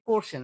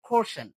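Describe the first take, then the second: First: Said in the usual way. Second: "কোশ্চেন" with a puffed K, like খোশ্চেন; loud, higher "কোশ্চেন" with breathy K; aspirated K. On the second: Shown as a demonstration. ("কোশ্চেন"-এর ক মহাপ্রাণ) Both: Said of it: "এটা ভুল একটা উচ্চারণ".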